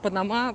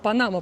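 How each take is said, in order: First: The stress falls where local speakers put it. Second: The stress falls where Russian speakers put it. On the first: "Панама по-местному. Ударение на другой слог" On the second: "Панама по-русски"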